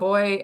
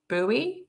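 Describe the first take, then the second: First: It is said the Australian way. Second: It is said the American way.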